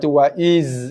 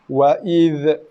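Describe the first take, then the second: First: The final consonant is a buzzing z sound. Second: The final dh ends with a bouncing echo. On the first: "tukar huruf zal kepada huruf zai" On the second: "membaca zal mati dengan kolkolah"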